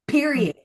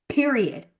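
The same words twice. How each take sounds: The two takes are said the same way.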